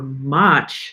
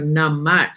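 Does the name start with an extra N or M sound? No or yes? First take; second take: no; yes. First: The name starts without any nasal sound. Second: The name starts with an added nasal syllable. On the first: "I just call her Mach" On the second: "when I try to go Namach, ... no, that's not how you say it"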